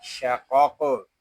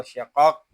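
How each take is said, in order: First: Slower शाकॉक with the final q bounced; with qalqala. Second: शाकॉक stopped dead on the final q; without qalqala. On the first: Teacher shows the correct reading, शाकॉक with bouncing qalqala. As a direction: let the last q of शाकॉक echo out. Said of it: "पलकला भी करेंगे". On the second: Teacher shows how not to read it, unbounced शाकॉक. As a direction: shut शाकॉक off with no bounce. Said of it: "ऐसे नहीं पढ़ेंगे". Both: Shown as a demonstration.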